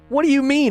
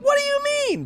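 First: It is said in a low, gravelly voice. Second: It is said in a raised, high voice.

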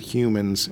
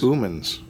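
First: The word begins with an H sound. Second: The word begins with a vowel sound.

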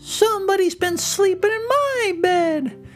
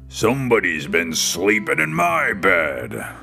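First: It is said in a loud, little, shrill voice. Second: It is said in a big, booming voice.

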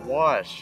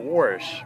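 First: It is said with a northern pronunciation. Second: It is said with a southern pronunciation. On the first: "is the elegant term, the northern term" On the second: "that's a southern term right there"

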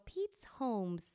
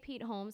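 First: An s sound is added after Pete. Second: The name has no s sound after Pete. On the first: The speaker calls it wrong. "she always adds an S or another letter to the end of the name, and she pronounces it wrong" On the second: The speaker calls it right. "So she'll say Pete Holmes has a skit"

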